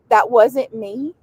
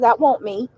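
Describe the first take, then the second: First: The middle word is pronounced as wasn't. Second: The middle word sounds like won't. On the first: It is the standard form. "Instead of" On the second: It is the local dialect form. "A lot of people that live here would say"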